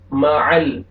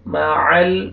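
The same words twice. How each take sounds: First: مع ال said the wrong way with the ل moved; wrong way shown. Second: مع ال with ع joined smoothly to a still ل; joined mim-lam. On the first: Teacher demonstrates how not to read مع ال. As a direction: show the mistaken reading of مع ال. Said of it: "مع ال ایسے نہیں پڑھنا". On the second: Teacher models the right joining of مع ال. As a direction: link مع ال without moving the ل. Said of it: "لام کو آپ نے ہلانا نہیں ہے". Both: Shown as a demonstration.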